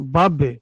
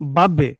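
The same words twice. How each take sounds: First: The final b is released with an echoing bounce. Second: The final b is released with an echoing bounce.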